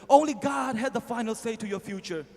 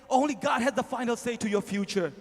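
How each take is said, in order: Both takes have the same delivery.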